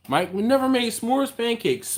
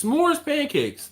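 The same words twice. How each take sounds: First: Said in the usual way. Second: S'mores pancakes said high and slowly; stressed and drawn out. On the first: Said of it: "repeats it drawn out". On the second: Shown as a demonstration. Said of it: "repeated with emphasis".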